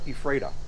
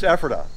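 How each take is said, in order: First: It is said the way a Canadian reads it. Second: It is said the way locals say it. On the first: This is how an outsider would say the name. The speaker calls it wrong. "from Canada, I'd call it Ephrata" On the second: This is how people in the town say the name. The speaker calls it right. "I know it's Ephrata"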